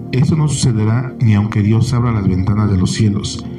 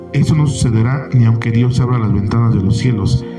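No difference in how they are said.

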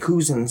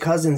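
First: The first syllable sounds like 'coo'. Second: The first syllable sounds like 'cuz'. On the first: "Why would you go from cuz to cous?" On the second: "If you say I-N-S, people say cousins"

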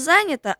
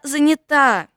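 First: The stress is on the first syllable. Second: The stress is on the last syllable. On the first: The speaker calls it wrong. "Мама не занята" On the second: The speaker calls it right. "а занята"

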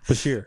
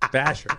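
First: The name ends with a long 'sheer' sound. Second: The name ends with a short 'sher' sound. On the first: The speaker calls it right. "Julian Bashir" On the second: The speaker calls it wrong. "I'm sorry that I mispronounced your question"

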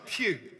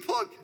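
First: The name rhymes with 'few', with no final g. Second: The name rhymes with 'rug', ending in a g. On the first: The speaker calls it right. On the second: The speaker calls it wrong. "I wonder if they think it's pronounced as Pug"

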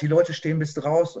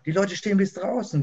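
First: It is said in a dismayed, negative tone. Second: It is said in a delighted, enthusiastic tone.

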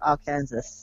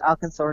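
First: The final syllables sound like 'Kansas'. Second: The final syllable sounds like 'saw'. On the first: The speaker calls it wrong. "not Arkansas" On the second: The speaker calls it right. "Arkansas is pronounced Arkansas"

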